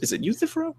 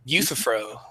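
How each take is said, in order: First: "Euthyphro" asked as a question, stressed YOO-thih-fro, rising; questioning pronunciation. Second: "Euthyphro" said as YOO-thuh-fro, flat and sure; correct pronunciation. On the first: Checking the name "Euthyphro" with his cohost, questioning rise. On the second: Cohost confirming the name "Euthyphro", calm correction. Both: Shown as a demonstration.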